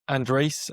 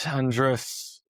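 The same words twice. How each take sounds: First: Andres ending in a long "ay", "AN-drayce"; second pronunciation of Andres. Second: Andres with a short, unstressed ending, "AN-druss"; first pronunciation of Andres. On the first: Trying the name Andres another way, ending in "-drayce". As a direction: say Andres as "AN-drayce", rising at the end. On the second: Trying out the name Andres, ending it in "-druss". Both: Shown as a demonstration.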